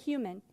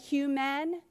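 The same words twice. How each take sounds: First: The second syllable has a reduced, weak vowel. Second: The second syllable has a full, spelled-out vowel. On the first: The speaker calls it right. "we say human" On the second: The speaker calls it wrong. "Do we say human? No"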